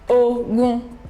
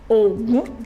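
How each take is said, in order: First: Both syllables are on a mid tone. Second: The tone goes from low to high. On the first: "Re, Re" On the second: "that's a god in Yoruba land. Ogun, Domi"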